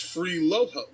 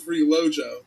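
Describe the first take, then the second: First: The middle consonant is an H sound. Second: The middle consonant is a J sound. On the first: It is read the Spanish way. The speaker calls it wrong. "when you read it, it's free Loho" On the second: It is the actual name. The speaker calls it right. "but it's actually free Lojo"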